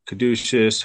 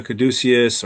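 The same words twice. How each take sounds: First: "caduceus" with a SH sound, ka-DOO-shus; alternative pronunciation. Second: Said in the usual way. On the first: Shown as a demonstration. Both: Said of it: "however you wanna pronounce it".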